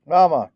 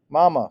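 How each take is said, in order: First: Higher, louder howl; little girl howling for Mama; howling call. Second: High, loud wail; child wailing for Mama; wailing call. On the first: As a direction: howl it like a small child left behind. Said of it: "Kayla howled over and over". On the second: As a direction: cry out for her mother as the boat pulls away. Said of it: "Celie wailed". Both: Acted.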